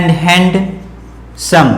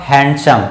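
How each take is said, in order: First: हैंडसम slowly, as "hand-sum"; हैंडसम drawn out in two parts, d pronounced; D sounded. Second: हैंडसम said as "han-sum"; हैंडसम with n running straight into s; silent D. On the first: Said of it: "डी word यहां silent होगा". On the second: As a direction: drop the d in हैंडसम. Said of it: "इसकी उच्चारण होगा". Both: Shown as a demonstration.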